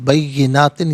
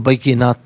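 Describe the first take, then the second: First: The word ends with an added n sound. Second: The word ends with a t sound. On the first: The reading continues without stopping here. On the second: The reading stops at this word.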